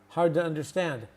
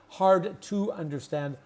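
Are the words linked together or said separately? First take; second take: linked; separately. First: The words run together quickly and reduced. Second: Each word is said slowly and separately. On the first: The speaker calls it right. "our connected fast speech" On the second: The speaker calls it wrong. "Not hard to understand"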